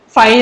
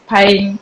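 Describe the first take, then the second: First: It is said with a standard Indian English pronunciation. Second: It is said with a Gujarati-influenced pronunciation. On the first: "it's not fine" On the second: "it's fine"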